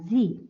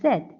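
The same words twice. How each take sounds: First: The letter is said in an American accent. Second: The letter is said in a British accent. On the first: "in American English it is pronounced as Z" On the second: "in British English it is pronounced as Z"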